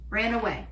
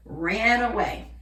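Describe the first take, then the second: First: Said in the usual way. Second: RAN AWAY drawn out slow and loud; slow, punchy "Ran away"; dramatic emphasis. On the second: Real, not acted. Dramatic answer to own question.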